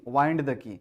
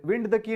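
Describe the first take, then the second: First: "wind" said as wined, to turn; "wind" with an eye sound; long-i pronunciation. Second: "wind" with a short i, as in moving air; "wind" as WIND, the breeze word; wrong short-i reading. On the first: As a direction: say "wind" to rhyme with kind. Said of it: "तब हम इसको वाइंड पढ़ते हैं". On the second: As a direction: say "wind" to rhyme with pinned. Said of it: "wind the key नहीं". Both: Shown as a demonstration.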